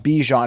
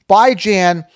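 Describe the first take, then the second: First: The second syllable does not rhyme with 'ran'. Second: The second syllable rhymes with 'ran'. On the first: The speaker calls it wrong. "Anyone calling him Bijan is incorrect" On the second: The speaker calls it right. "Bi as in bi-weekly, B I, and Jan as in ran as in tan"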